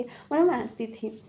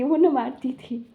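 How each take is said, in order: First: Said in the usual way. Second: Words breaking into a laugh; trying not to laugh while saying it; louder, giggly take. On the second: Real, not acted. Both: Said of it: "मुझे हंसी आ रही है".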